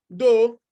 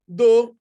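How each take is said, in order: Both takes have the same delivery.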